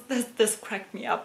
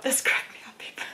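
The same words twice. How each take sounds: First: Said in the usual way. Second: Hushed, breathy aside to the camera; whisper. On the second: Shown as a demonstration. Vlogger whispers to her viewers, amused. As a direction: lean in and whisper it like a secret.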